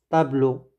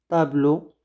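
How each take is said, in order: No difference in how they are said.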